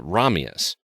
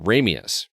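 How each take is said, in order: First: Ramius with first vowel as "rah"; audiobook narrator's pronunciation. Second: Ramius with first vowel as "ray"; movie pronunciation. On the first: Podcaster quoting the narrator's way, RAH-mee-us Ramius. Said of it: "the narrator pronounces it Ramius". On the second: Podcaster quoting the film's way, RAY-mee-us Ramius. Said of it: "in the movie, they pronounce it". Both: Shown as a demonstration.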